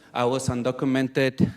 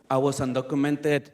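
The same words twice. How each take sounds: The two takes are said the same way.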